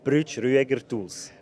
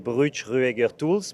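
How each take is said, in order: First: The name is said the German way. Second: The name is said the French way.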